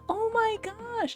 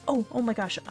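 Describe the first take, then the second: First: It is said slowly and in awe. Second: It is said quickly and seriously.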